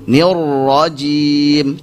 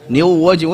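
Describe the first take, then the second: First: The r is a plain, lightly trilled r. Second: The r sounds like a w. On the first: The speaker calls it right. "R biasa. Hanya saja jangan terlalu ditekan" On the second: The speaker calls it wrong. "Oh, ternyata waw"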